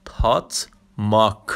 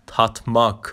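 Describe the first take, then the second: First: تات ماک spoken slowly with stress on ماک; slow Turkish word. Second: Said in the usual way. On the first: Shown as a demonstration. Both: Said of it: "به معنی مزه کردن".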